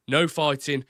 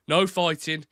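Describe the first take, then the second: First: Brummie accent, raised and firm. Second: Thomas Shelby style Brummie accent, raised. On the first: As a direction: repeat "No fighting" in Brummie. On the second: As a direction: Brummie take on "No fighting". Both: Shown as a demonstration. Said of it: "I could do Brummie as well".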